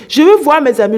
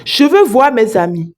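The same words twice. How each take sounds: First: Louder and higher, demanding to see her friends; insistent shout. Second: Said in the usual way. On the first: Retold or imitated. Woman insisting to the rich man, raised mock shout. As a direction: push it out like a frightened demand. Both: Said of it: "elle commence à crier".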